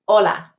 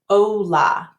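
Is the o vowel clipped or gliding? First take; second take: clipped; gliding. First: The o is short with still lips. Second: The o glides with moving lips. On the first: The speaker calls it right. "cut off that O short" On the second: The speaker calls it wrong. "Too many students say it like this"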